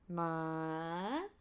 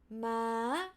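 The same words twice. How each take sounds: First: The pitch rises from low to high. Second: The pitch holds mid, then jumps up high. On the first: "rising from low, low to high" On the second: "mid to high"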